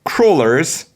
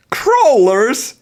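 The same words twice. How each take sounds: First: Wondering question rising higher; mock dramatic question. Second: Much higher, louder squeal of disbelief; hammed-up shocked question. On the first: Host reading the guide aloud, puzzled mock question. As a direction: ask it like a dawning mystery. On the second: Host reading the guide aloud, squealing mock shock. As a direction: shriek the word in mock astonishment. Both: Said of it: "now we are going to do dramatic reading".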